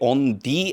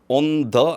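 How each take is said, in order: First: The word 'the' is said with a long 'thee' vowel. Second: The word 'the' is said with a short 'thuh' vowel. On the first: The speaker calls it right. "발음이 모음이면 the가 되고요" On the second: The speaker calls it wrong. "on the 아니고"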